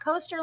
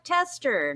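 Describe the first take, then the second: First: The vowel sounds like the one in 'toaster'. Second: The vowel sounds like the one in 'tester'. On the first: The speaker calls it wrong. "not coaster like toaster" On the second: The speaker calls it right. "like tester"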